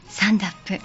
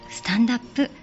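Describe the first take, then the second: First: The t is dropped, sounding like 'sandap'. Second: The d and up blend into 'dap'. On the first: "どことなくサンダに聞こえてくる" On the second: "ネイティブ風に発音すると"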